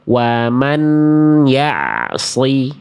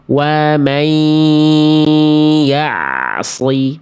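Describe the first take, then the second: First: The n sound is heard clearly before y. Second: The n sound merges into the following y. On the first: The speaker calls it wrong. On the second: The speaker calls it right. "bunyiannya dimasukin ke huruf ya"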